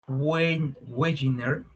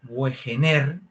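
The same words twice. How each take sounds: First: The name is pronounced the German way. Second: The name is pronounced the Spanish way.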